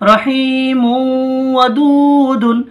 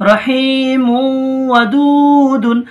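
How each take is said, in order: First: The last word ends with a nasal '-dun'. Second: The last word ends with a nasal '-dun'.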